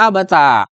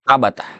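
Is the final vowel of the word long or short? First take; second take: long; short. First: The final vowel is a long a. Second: The final vowel is a short a. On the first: This is a rare, irregular reading of the word. "Ada lagi tambahan alif di belakangnya" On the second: This is one accepted reading of the word. "fathah huruf ta'nya"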